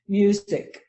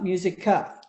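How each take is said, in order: First: The word ends on a clipped k sound. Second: The word ends with an added uh vowel. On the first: The speaker calls it right. "It's just k" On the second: The speaker calls it wrong.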